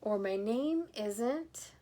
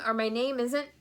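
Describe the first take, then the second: First: Trailing. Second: Said in the usual way. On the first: Acted. Grandpa forgetting his name.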